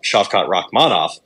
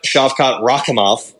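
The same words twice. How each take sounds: First: "Rakhmonov" said as rock-MAH-noff; name said as Rakmonoff. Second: "Rakhmonov" said as RAH-kuh-moff; name said as Rakimov. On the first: Clearing up a similar name, "Rakhmonov" pronounced rock-MAH-noff. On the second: Naming the fighter in the bout, "Rakhmonov" pronounced RAH-kuh-moff. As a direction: end "Rakhmonov" in -kuh-moff, without an N sound. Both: Shown as a demonstration. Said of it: "not to be confused with".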